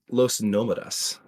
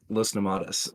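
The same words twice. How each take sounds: First: The stress falls on the first syllable of Nomadas. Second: The stress falls on a later syllable of Nomadas. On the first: The speaker calls it right. "it's actually pronounced uh, Los Nomadas ... the accents on the O" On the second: The speaker calls it wrong. "not Los Nomadas"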